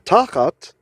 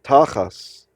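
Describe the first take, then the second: First: The word ends with a T sound. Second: The word ends with an S sound.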